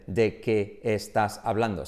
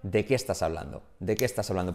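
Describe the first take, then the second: First: Slow, separated "¿De qué estás hablando?"; spaced-out words in "¿De qué estás hablando?", no linking. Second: "¿De qué estás hablando?" as one single word; words run together. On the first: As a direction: give each word of "¿De qué estás hablando?" its own beat. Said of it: "No dicen". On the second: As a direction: link "qué estás hablando" without gaps, lower and casual. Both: Shown as a demonstration.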